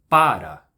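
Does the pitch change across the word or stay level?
changes. The stressed syllable is higher in pitch. "eu posso marcar a sílaba tônica subindo um pouco o tom"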